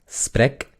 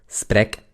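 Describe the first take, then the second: No difference in how they are said.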